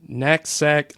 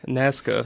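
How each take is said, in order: First: The word is said roughly like 'nutsack'. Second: The word is said as 'Nazca', with z and c. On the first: The speaker calls it wrong. "did I say that wrong? ... It sounded like nutsack" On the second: The speaker calls it right. "it's Nazca"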